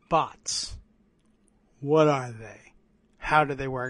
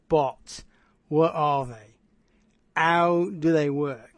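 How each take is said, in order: First: It is said in his normal voice. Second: It is said in a put-on character voice.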